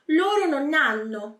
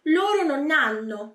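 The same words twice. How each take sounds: First: Non and hanno run together like one word. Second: The same.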